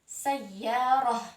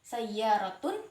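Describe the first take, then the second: First: The word ends with a soft h sound. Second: The word ends with a t sound plus -un. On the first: The speaker stops after the word. "dilafatkan h ketika wakaf atau berhenti" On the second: The word is joined to the next word. "Tun jelas ketika disambung"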